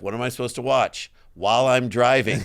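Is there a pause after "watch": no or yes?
yes. There is a pause after watch.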